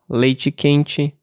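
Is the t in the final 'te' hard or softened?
softened. The final te has a softened t. This is the accent of another region. "adaptei o meu TE, no fim das palavras, ao sotaque de lá"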